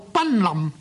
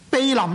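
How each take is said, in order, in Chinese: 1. 第一个音节读 ban。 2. 第一个音节读 bei。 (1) "奔林呢可以通嘅" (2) "避临呢就是光临的意思"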